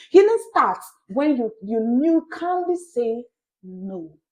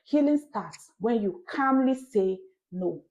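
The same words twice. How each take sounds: First: Loud, building preacher's cry on healing; preacher raising his voice to the congregation, loud; forceful preaching. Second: Slow, even line leaning on calmly; preacher repeating his point slowly, stressing calmly. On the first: Preaching loud and urgent to listeners. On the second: Pastor telling listeners to mark calmly, slow stress. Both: Shown as a demonstration. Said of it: "Mark the word calmly".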